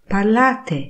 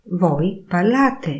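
First: "parlate" higher and falling like an order; commanding tune. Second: Said in the usual way. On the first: Shown as a demonstration. Teacher contrasts statement with order on "parlate". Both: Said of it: "intonacja oraz kontekst powoduje".

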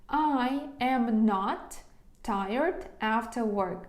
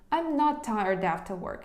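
First: Slow, word-by-word model sentence; slow dictation. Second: Said in the usual way. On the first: Shown as a demonstration. Teacher dictating to students, slow and deliberate. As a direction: lay each word down slowly.

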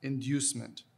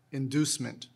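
First: "Inducement" with a y-glide, in-DYOOS-ment; alternate pronunciation. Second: "inducement" with a plain DOO in the middle; first pronunciation. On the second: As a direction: say "inducement" as in-DOOS-ment, no y-glide. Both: Shown as a demonstration. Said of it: "The two pronunciations are".

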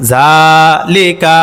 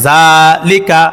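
First: জালিকা stretched very slowly, lower; syllables of জালিকা held long; drawn-out reading. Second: জালিকা read briskly with no vowel lengthening; clipped syllables in জালিকা; quick short reading. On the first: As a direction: draw out জালিকা in a slow lilting chant. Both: Shown as a demonstration. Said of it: "তাড়াতাড়ি করিয়া পড়িতে হয়".

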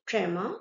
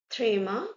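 First: Tremor said as "tray-ma"; English-style "tray-ma" for tremor; English term. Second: Tremor said as "tree-ma"; French-style "tree-ma" for tremor; French term. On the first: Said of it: "in English". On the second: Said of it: "in English, tremor". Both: Shown as a demonstration.

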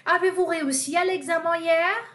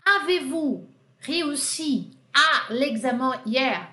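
First: Bright model question. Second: Slow model question. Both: Shown as a demonstration. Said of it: "Aqui eu usei a inversão".

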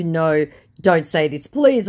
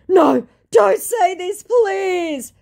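First: Said in the usual way. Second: High, loud, drawn-out wail; mock pleading. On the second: Scammer begging her to stop insulting him, mock pleading. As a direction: beg in hammed-up distress.

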